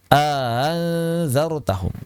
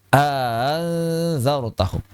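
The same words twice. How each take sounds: Both takes have the same delivery.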